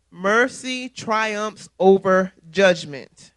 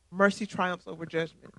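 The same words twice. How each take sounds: First: Very slow, each word weighed out; slow emphatic. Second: Softer, letting it sink in; soft repeat. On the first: Preacher lingering over the verse, slow and emphatic. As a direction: drag it out, pressing every word. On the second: Preacher repeating the verse to the flock, softly. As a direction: say it again, softer. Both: Shown as a demonstration.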